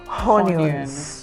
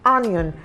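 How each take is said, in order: First: The word starts with an h sound. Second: The word starts directly with the vowel. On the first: The speaker calls it wrong. "and not onions" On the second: The speaker calls it right. "You have onion"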